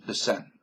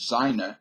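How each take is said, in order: First: "the Seine" said "sen", one short syllable; French "Seine". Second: "Seine" said "ZINE-uh", German way; German-style "Seine". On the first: Vlogger correcting himself, saying "Seine" the French way. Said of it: "But it's Se". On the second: Explaining his old mistake, saying "Seine" the German way. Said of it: "I always used to pronounce the Seine". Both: Shown as a demonstration.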